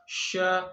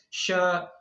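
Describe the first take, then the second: First: The mouth stays nearly closed, so the sound is muffled. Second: The same.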